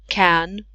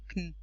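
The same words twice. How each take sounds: First: The word has a full, clear vowel. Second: The word has almost no vowel, a schwa. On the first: "doesn't sound like that in a sentence" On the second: "not even any vowel inside, or just a schwa"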